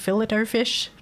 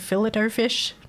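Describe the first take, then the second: First: Fillet is pronounced the Australian way. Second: The same.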